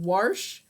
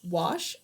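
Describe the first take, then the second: First: The word is said with an r sound. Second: The word is said without an r sound. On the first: "I said warsh" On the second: "when I said wash"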